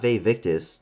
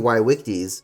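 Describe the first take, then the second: First: It is said in an anglicized way. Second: It is said in a classical Latin way. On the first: The speaker calls it wrong. "not Vae Victis" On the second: The speaker calls it right. "It should be Vae Victis"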